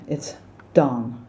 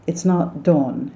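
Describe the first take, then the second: First: "dawn" with open ah, like Don; American dawn. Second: "dawn" with a British aw vowel; wrong dawn. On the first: Coach showing the American dawn. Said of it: "D O N". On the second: Coach showing the wrong dawn. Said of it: "it's dawn, D O N". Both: Shown as a demonstration.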